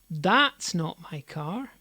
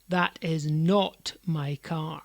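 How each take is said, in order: First: The stress is on "that's". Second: The stress is on "not".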